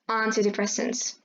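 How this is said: It is said in a British accent. "in typical British English, these words sound like"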